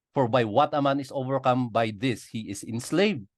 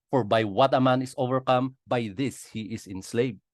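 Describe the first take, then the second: Both takes have the same delivery.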